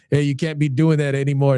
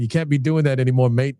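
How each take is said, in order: First: Said in the usual way. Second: Lightly imitated English accent; hint of English accent, dropping the final R. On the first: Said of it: "He just said". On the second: Retelling a former fighter's blunt advice, mild English accent. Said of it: "And in his English accent".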